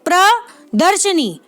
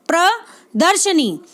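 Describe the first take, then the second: No difference in how they are said.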